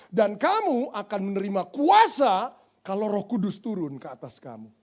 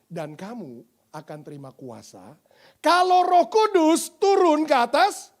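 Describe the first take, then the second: First: The stress falls on the word kuasa. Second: The stress falls on the words Roh Kudus. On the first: The power is what believers receive. The speaker calls it wrong. "Biasanya ayat itu ... dibacanya begini. ... Karena kuasanya yang bisa diperkanan" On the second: The Holy Spirit is what believers need. The speaker calls it right. "bacanya harusnya gini. ... Yang kita butuh Roh Kudus"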